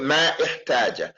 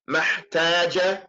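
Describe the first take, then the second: First: A glottal stop separates the two words. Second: The two words run together without a glottal stop. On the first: The speaker calls it wrong. "You don't say ما احتاج" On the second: The speaker calls it right. "this hamza here is hamza al-wasl. You just say محتاج"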